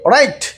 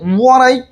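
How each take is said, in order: First: The word begins with an r sound. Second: The word begins with a w sound. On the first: The speaker calls it right. "উচ্চারিত হবে না, কাজেই রাইট" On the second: The speaker calls it wrong. "It's রং"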